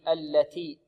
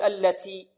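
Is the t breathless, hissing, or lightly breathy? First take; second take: lightly breathy; hissing. First: The t has light breath without hissing. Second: The t has an exaggerated, s-like hiss. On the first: The speaker calls it right. "يأتي بالتاء مهموسة بدون رائحة السين هكذا" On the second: The speaker calls it wrong. "بعض الطلاب يبالغون في الهمس، يقول"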